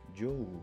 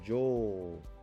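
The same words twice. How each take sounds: First: The vowel is kept short. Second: The vowel is held long. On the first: The speaker calls it wrong. "rather than jo" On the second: The speaker calls it right. "this is read jo"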